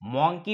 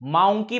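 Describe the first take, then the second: First: The first vowel sounds like 'aw'. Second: The first vowel sounds like 'ow'. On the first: "मॉन्की म्हणतो का? नाही" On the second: "औ. माउंकी म्हणतो का? नाही"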